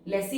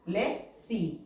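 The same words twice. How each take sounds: First: Said in the usual way. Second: Lesi split into "le" and "si" with a clear pause; syllable by syllable. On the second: Shown as a demonstration. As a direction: break Lesi in two, pausing after "le". Syllable-by-syllable while writing.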